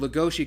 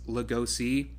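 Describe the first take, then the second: First: The name is pronounced the Japanese way. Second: The name is pronounced the English way. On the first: "kind of comes from the Japanese pronunciation" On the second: "technically it's Lugosi if we're pronouncing it in English"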